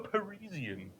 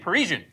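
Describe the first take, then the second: First: It is said in a posh British way. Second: It is said in a plain everyday way. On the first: The speaker sounds stuck-up. The speaker calls it wrong. "you sound like very like stuck-up British if you say" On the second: The speaker sounds ordinary. The speaker calls it right. "but it should be Parisian"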